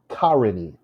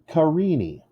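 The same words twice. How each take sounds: First: The stress is on the first syllable. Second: The stress is on the second syllable. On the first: The speaker calls it wrong. "If the first one is stressed" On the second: The speaker calls it right. "The second syllable is stressed"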